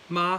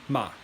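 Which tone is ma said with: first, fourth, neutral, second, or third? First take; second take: first; fourth. First: The pitch stays high and level. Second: The pitch falls sharply downward. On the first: "the first one is ma, high flat tone" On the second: "and then the fourth tone, ma"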